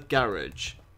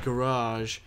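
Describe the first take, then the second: First: It is said in a British accent. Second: It is said in an American accent.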